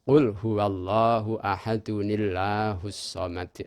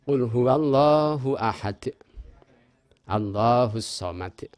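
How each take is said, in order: First: It runs on, adding an audible nun sound. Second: It stops after ahad with no nun sound.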